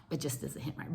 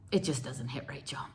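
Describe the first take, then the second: First: It just doesn't hit right fully whispered, breathless. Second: Much softer, lower sigh of regret. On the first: Repeats it whispered. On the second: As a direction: let It just doesn't hit right drop soft and low. Sad aside on Halloweens here. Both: Real, not acted.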